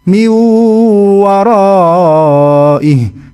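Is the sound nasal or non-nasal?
non-nasal. It is said freely without nasal sound. The speaker calls it wrong. "nggak ada bedanya, berarti ini kurang tepat"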